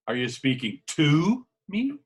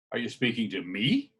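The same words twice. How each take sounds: First: "me" punched loud at the end of "Are you speaking to me?"; stress on ME. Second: Said in the usual way. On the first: Shown as a demonstration. Coach demonstrating emphasis, loud stress on "me". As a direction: land hard and loud on "me". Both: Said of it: "By emphasizing on the highlighted word".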